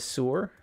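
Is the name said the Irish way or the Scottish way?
Scottish. It is said with a Scottish 'sue-er' vowel. This is how the name is actually said. "So you actually say it as sewer?"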